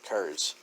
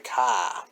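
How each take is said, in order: First: The vowel sounds like 'air', with an r. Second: The vowel sounds like 'ah', with no r. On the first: "he always says cars. K E R S" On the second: "Kind of like Massachusetts, they say ka, which is C A A H"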